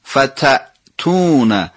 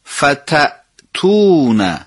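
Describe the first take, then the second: The two takes are said the same way.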